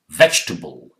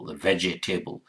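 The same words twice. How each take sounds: First: The word is shortened to three syllables. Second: Every spelled syllable of the word is sounded. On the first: The speaker calls it right. "Ve, j, t, bull, vegetable" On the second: The speaker calls it wrong. "it sounds like vegetable, vegetable, but this is not how it's pronounced"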